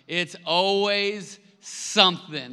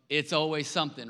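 First: "It's always something." slow and much louder, ALWAYS leaned on hard; stress on always. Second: Said in the usual way. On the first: Shown as a demonstration. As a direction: drag it out and hit ALWAYS.

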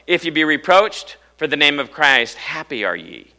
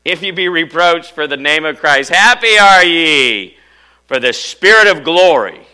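First: Said in the usual way. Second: Loud, high verse with HAPPY ARE YE stretched out; exultant proclamation. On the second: Shown as a demonstration. Preacher rereading the verse to congregation, exultant shout. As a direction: belt out the scripture, drawing out the key phrase.

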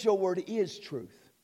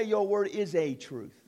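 First: "Your word is truth" said slowly and deliberately; slow emphatic quote. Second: Said in the usual way. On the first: Shown as a demonstration. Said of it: "It says". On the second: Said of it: "Notice it does not say".

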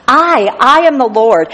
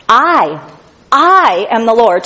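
First: "I, I" pitched higher and proclaimed; preacher repeating the doubled "I" with more force; stronger stress on I. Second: "I, I" hit hard, the first "I" set apart by a pause; preacher punching the doubled "I"; stress on I. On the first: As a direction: lift and ring out both "I"s. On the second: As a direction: lean on each "I" before "am the Lord". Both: Shown as a demonstration. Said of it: "Twice he has to say "I" to emphasize it".

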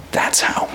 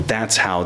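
First: Whispered. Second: Said in the usual way. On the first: Acted. Hushed repeat in sermon.

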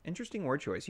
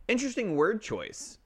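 First: Quieter repeat. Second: Interesting word choice said high and teasing. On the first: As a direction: say Interesting word choice again under your breath. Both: Shown as a demonstration.

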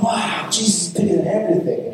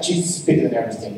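First: Higher, lightly mocked childlike amazement; naive wonder. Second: Said in the usual way. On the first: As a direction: echo it like an awestruck little kid. Mimics naive wonder at the statement.

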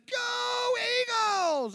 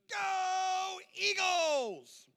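First: Loud, very high, drawn-out shout of "Go Eagles!"; shouted cheer. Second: Put-on high, long drawn-out cheer of a small boy; little boy cheering. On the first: Retold or imitated. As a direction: yell "Go Eagles!" back across the field. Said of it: "I looked back and said". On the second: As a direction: stretch out "Go Eagles!" high like an excited kid. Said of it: "and he goes".

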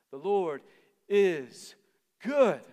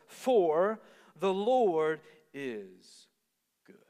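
First: Each word louder and higher, GOOD peaking high and loud; rising proclamation to GOOD; building emphasis. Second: Very slow, drawn-out scripture line; slow solemn reading. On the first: Repeating verse with emphasis. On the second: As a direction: savour each word of the verse. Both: Acted.

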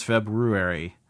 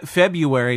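First: FEBRUARY said as feb-roo-ary; careful FEBRUARY with ROO in the middle; R sounded. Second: FEBRUARY said as feb-yoo-ary; casual FEBRUARY with a Y sound, feb-yoo-ary; R dropped. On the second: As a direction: leave the first R out of FEBRUARY. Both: Shown as a demonstration. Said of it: "February versus February".

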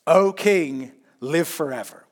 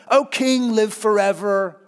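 First: Said in the usual way. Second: Higher, louder, oily flattering "O king, live forever"; oily courtier flattering the king; slimy flattery. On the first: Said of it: "which is a fantastic line". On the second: Retold or imitated. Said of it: "it's kinda slimy".

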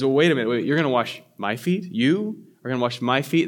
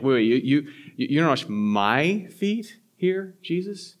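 First: Said in the usual way. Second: "you" repeated and hit hard, rising in disbelief; stress on you. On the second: Shown as a demonstration. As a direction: lean on "you, you" as if Jesus can't mean it. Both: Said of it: "the emphasis is on you".

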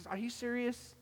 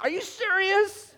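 First: Higher, softer incredulous aside; muted disbelief. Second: High, loud, drawn-out incredulity; exasperated disbelief. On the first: Listener reacting privately to a pastor's story, muted disbelief. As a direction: doubt it under your breath, pitched up. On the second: Listener fed up with pastor's tall story, exasperated. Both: Acted.

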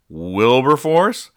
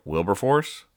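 First: Wilberforce? dragged out slow and loud, rising; shocked realisation. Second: Said in the usual way. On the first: Retold or imitated. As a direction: stretch out Wilberforce? in dawning alarm. Parents realise they forgot kid.

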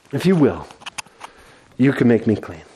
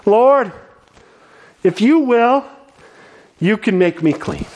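First: Lower, softer, humbled repeat; quiet desperate plea. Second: Desperate plea. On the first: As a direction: whisper the hope again, broken. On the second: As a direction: plead for healing with everything. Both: Acted. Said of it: "the desperation in his heart and his voice".

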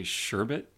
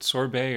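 First: "sherbet" as SHER-bit, final t sounded; Oregon pronunciation. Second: "sorbet" as sor-BAY, silent t; French-style pronunciation. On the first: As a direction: open "sherbet" with sh and end on a t. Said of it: "hearing people say sherbet". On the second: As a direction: say "sorbet" ending in an ay sound. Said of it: "is it sorbet or". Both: Shown as a demonstration.

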